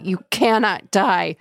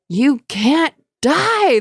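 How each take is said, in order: First: Said in the usual way. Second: High, slow wailing spirit voice; seething shrieking spirit. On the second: Acted. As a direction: wail it like a desperate ghost. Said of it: "the spirit wailed".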